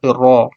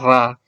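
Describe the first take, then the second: First: The letter is sounded heavy, with a rounded o. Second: The letter is sounded light, with an open a. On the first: The speaker calls it right. "itu ro. ... baca tebal" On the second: The speaker calls it wrong. "Jangan ra"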